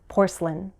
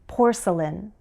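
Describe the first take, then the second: First: The word is said with one syllable dropped. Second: The word is said with its full syllables.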